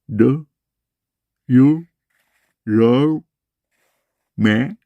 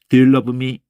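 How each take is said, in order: First: The force is put on the vowels. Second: The force is put on the consonants. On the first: "영어는 기본적으로 모음을 복식으로 하는 거예요" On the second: "자음에다 힘을 주는 소리는요. 빠르게 계속 반복하면은 자음만 남아요"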